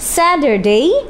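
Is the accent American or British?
American. It is said in an American accent. "একটু আগে আমরা বলেছিলাম স্যাটারডে আমেরিকান অ্যাকসেন্ট"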